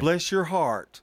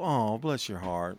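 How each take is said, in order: First: The phrase is said in a mocking tone. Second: The phrase is said in a caring tone. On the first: The speaker is mocking the listener. "That would be sarcastic" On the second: The speaker genuinely feels for the listener. "But you go, oh, bless your heart"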